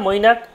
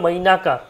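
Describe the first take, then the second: First: The word ends on a bare final consonant. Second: The final consonant carries an added vowel sound. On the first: "অর্ধ ব্যঞ্জন হিসেবে উচ্চারণ হবে" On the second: "সম্পূর্ণ ব্যঞ্জন উচ্চারণ করবো"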